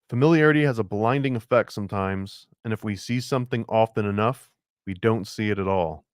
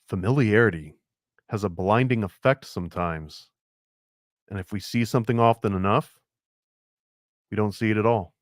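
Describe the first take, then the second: First: It is read in a plain, ordinary way. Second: It is read in a dramatic, theatrical way.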